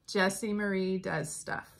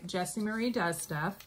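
First: It is said slowly and clearly. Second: It is said fast, run together.

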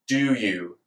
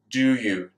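First: A d sound is followed by y. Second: A d sound is followed by y.

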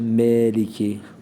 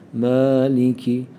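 First: The first vowel sounds like a front 'e'. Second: The first vowel sounds like an open 'a'. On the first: The speaker calls it wrong. "Bazı arkadaşlar meliki" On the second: The speaker calls it right. "Fetha sesi neydi? Yav ha ha, yav a a"

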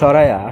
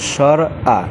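First: The two words run together with a glide. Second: The two words are kept apart without a glide. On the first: The speaker calls it wrong. "আসলে সরায়া না" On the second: The speaker calls it right. "সঠিক উচ্চারণ হলো স্বর আ"

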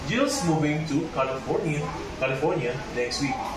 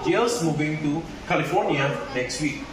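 First: California is pitched lower than the other words. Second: California rises and then falls in pitch. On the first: The speaker is unsure where the person is moving. "California is lower than the other words" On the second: The place is new or contrasting information. "California has a rising and falling stress"

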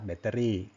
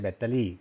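First: The last syllable starts with a trilled r. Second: The last syllable starts with an l. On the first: The speaker calls it right. "รอเรือนะครับดัดลิ้นหันลิ้นให้ชัดเจนนะครับ" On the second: The speaker calls it wrong. "ไม่ใช่ ... ถ้ารอลิงก็ลี่นะครับ"

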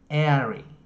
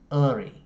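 First: The ending has a full, long 'e' vowel. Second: The ending has a weak, reduced 'uh' vowel. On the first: "Có một số người họ phát âm làm e dài" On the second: "Có một số người thì họ sẽ phát âm làm ơ"

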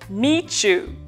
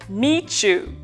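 First: The t and you blend into a ch sound. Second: The same.

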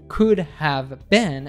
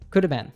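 First: Each word is said fully and clearly. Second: 'Have' is reduced and blended into 'could'.

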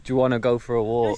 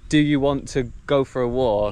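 First: The words are shortened and run together. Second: Every word is said fully and separately. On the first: "We'd just say" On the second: "instead of saying"

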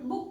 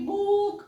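First: The vowel is kept short. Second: The vowel is drawn out long. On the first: The speaker calls it right. "बुक म्हणतो" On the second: The speaker calls it wrong. "असं लांब म्हणत नाही आपण"

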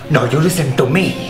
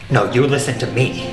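First: The line is read in an exaggerated foreign accent. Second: The line is read in a natural accent. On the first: "more ethnic?" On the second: "it's really not reading that way"

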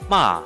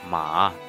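First: The pitch falls sharply downward. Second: The pitch dips low then rises. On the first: "It's like dropping" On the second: "It's like very deep, low with high end"

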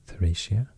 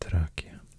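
First: It is said with an English-style pronunciation. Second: It is said with a Roman-style pronunciation. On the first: "I think the English pronunciation of these are usually maybe Thracia" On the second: "but I think the Roman pronunciation is more like"

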